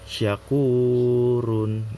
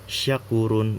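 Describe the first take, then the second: First: The u vowel is held long. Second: The u vowel is cut short. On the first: The speaker calls it right. "Jadi syakurun gitu" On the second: The speaker calls it wrong. "Bukan syakurun"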